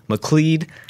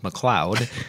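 First: The last syllable rhymes with lead. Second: The last syllable does not rhyme with lead. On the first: This is how the name's owner says it. The speaker calls it right. "it rhymes with lead" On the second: This is how others say the name. The speaker calls it wrong. "I've heard it pronounced McLeod"

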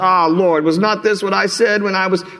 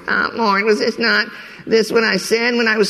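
First: It is read in a plain, ordinary voice. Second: It is read in a whiny, complaining voice.

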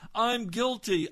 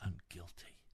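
First: It is shouted loudly. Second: It is whispered very softly.

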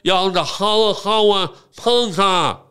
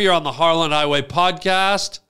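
First: It is said with a put-on speech impediment. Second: It is said in a clear normal voice.

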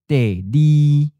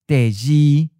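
First: The second syllable starts with an l sound. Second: The second syllable starts with a j sound. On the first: "le is just easier to say than j" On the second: "Instead of Deji for second"

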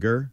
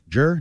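First: It begins with a hard g sound. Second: It begins with a soft j sound. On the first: The speaker calls it wrong. "not Ger?" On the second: The speaker calls it right.

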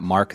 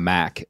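First: The name is said with the R pronounced. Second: The name is said Boston-style, without the R.

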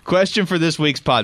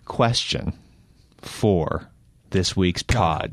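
First: It is read at a normal speed. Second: It is read very slowly.

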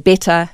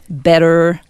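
First: The word ends on a neutral vowel, no R. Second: The word ends with a pronounced R sound. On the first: "In South African English and certainly British English, you don't put the R in" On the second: "with the American accent, the first thing you need to learn is to add that R on at the ends of words"

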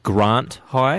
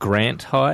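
First: It uses the South Australian pronunciation. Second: It uses the Victorian pronunciation. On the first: The speaker calls it right. "it's things like Grant High" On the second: The speaker calls it wrong. "It's not Grant High"

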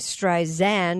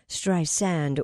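First: The middle consonant is a buzzing Z sound. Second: The middle consonant is a hissing S sound. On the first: The speaker calls it wrong. "with a Z sound" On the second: The speaker calls it right. "with an S sound"

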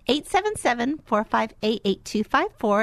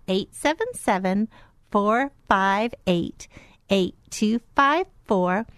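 First: The number is said at normal speed. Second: The number is said slowly.

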